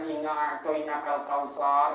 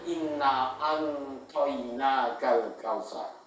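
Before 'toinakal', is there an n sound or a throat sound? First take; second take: throat sound; n sound. First: A throat consonant comes before 'toinakal'. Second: An n sound comes before 'toinakal'. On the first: "bukan inna a'toinakal kautsar lagi" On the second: "membaca huruf ain dengan huruf nun"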